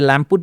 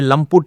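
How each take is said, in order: First: The first syllable sounds like 'lamp'. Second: The first syllable sounds like 'lump'. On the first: The speaker calls it wrong. "फिरंग लोग सब लैम्पुट बोलते हैं" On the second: The speaker calls it right. "उस लंप से वो लंपुट बन गया"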